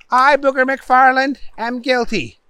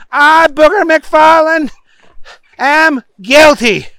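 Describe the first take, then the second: First: High prompt, softening at the end; upset judge prompting. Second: Oath-taking Booger. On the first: Judge giving Booger the second option, high but restrained. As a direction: offer the other plea with strained patience. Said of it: "The judge was getting upset". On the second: Booger parroting the judge, loud and overblown. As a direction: boom out every word at high pitch. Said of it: "said Booger". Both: A narrator's reading.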